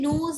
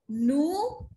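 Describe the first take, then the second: First: The final s sound is pronounced. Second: The final s sound is silent. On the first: The speaker calls it wrong. "We don't say noos" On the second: The speaker calls it right. "That is why I said nu"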